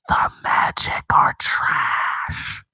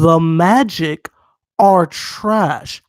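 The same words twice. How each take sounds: First: It is said in a whisper. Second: It is said in a normal voice.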